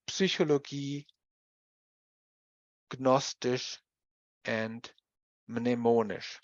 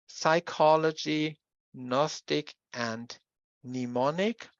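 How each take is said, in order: First: "Psychologie, Gnostisch, and Mnemonisch" with p, g and m sounded; German reading with full clusters in "Psychologie, Gnostisch, and Mnemonisch"; German pronunciation. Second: "psychology, Gnostic, and mnemonic" with silent p, g and first m; spaced-out English reading of "psychology, Gnostic, and mnemonic"; English pronunciation. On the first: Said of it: "we pronounce them as". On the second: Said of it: "these words are pronounced in English". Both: Shown as a demonstration.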